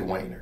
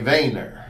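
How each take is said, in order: First: The name is pronounced the American way. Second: The name is pronounced the Dutch way. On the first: "we say in the United States we say Weiner" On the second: "if you're truly Dutch, you would say Weiner"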